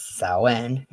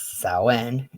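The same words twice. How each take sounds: First: It uses the Irish pronunciation of the word. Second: It uses the Irish pronunciation of the word.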